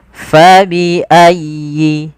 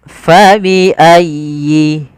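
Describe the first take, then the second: Both takes have the same delivery.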